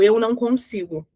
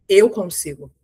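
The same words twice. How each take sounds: First: Saying "Eu não consigo" closed off and deflated; "Eu não consigo" with the chest closed, no energy; defeated tone. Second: "Eu consigo" said firm with an open chest; confident tone. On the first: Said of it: "a forma que eu falo já é diferente". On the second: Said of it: "A entonação já é completamente diferente". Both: Shown as a demonstration.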